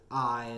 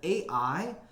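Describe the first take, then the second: First: It is one syllable rhyming with tie. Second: It is said as two separate letter names. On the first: "as in the, you know, word tie" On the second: "makes me think of artificial intelligence"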